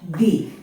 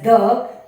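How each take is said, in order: First: The word ends in a long 'ee' vowel. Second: The word ends in a short 'uh' vowel. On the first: This is the form used before vowels. The speaker calls it right. "We'll pronounce this as the" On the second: This is the form used before consonants. The speaker calls it wrong. "When it comes before vowels, it is not pronounced as the"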